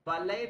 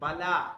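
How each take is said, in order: First: The word ends with an 'ay' sound. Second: The word ends with an 'ah' sound. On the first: The speaker calls it wrong. "बलय नहीं कहेंगे" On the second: The speaker calls it right.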